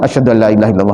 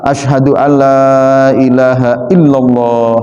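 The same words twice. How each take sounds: First: The vowel in 'la' is cut short. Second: The vowel in 'la' is held long. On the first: It turns the phrase into a positive statement. The speaker calls it wrong. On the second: It expresses a negation, 'there is no god'. The speaker calls it right. "lanya harus panjang"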